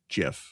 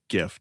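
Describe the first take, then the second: First: The word begins with a soft J sound. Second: The word begins with a hard G sound. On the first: The speaker calls it wrong. "Not like a J G I F" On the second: The speaker calls it right. "that's how you say it"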